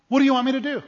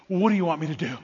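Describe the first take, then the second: First: High-pitched, incredulous question; much higher, emphatic asking; emphatic repeat. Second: Said in the usual way. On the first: Acted.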